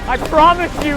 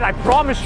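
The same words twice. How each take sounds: First: It sounds earnest and heartfelt. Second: It sounds casual and offhand.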